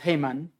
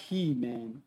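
First: The name is said with a Hebrew pronunciation. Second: The name is said with an English pronunciation. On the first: "in Hebrew it's Heman" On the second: "but I like Heman"

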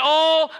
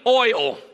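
First: It is said in a South Georgia accent. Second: It is said in a Northern US accent.

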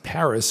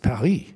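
First: It is pronounced the English way. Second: It is pronounced the French way. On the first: The speaker calls it wrong. "It's not pronounced Paris in French" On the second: The speaker calls it right. "It's Paris"

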